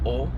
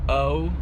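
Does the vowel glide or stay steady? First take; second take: steady; glides. First: The vowel stays steady with a fixed jaw. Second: The vowel glides as the jaw moves. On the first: The speaker calls it right. "You keep your jaw fixated" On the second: The speaker calls it wrong. "Instead of the o"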